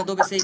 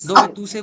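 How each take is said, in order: First: Said in the usual way. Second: Dove tu sei, said louder, with tu kept in; teacher loudly quoting the mistaken Dove tu sei; wrong version stressed. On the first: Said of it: "বলছি?". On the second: Shown as a demonstration. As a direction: call out the wrong form, Dove tu sei, with emphasis. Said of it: "বলছি না".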